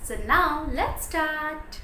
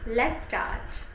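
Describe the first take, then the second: First: Slow, lively teacher's cue; story-time teacher's opening; kindergarten teacher. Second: Said in the usual way. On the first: Shown as a demonstration. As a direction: draw the class in slowly and brightly. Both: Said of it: "this is how you can present yourself".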